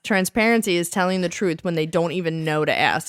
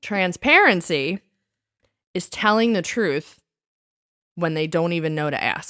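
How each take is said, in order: First: It is said fast without a pause. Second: It is said slowly with a pause.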